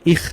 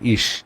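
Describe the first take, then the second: First: The word ends with a hard kh sound. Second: The word ends with a soft sh sound. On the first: The speaker calls it wrong. "এটা ইখ না" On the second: The speaker calls it right. "এটা ইশ"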